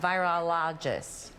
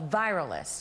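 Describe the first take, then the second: First: The word is said with four syllables. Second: The word is said with three syllables. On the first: The speaker calls it right. "A virologist" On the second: The speaker calls it wrong. "Am I saying that?"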